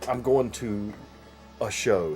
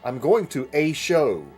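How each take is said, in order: First: The word 'a' is said with a weak vowel. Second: The word 'a' is said fully, like 'ay'. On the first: "instead of saying" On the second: "he would say ... Why do you have to enunciate that? A"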